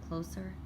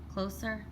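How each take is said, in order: Both takes have the same delivery.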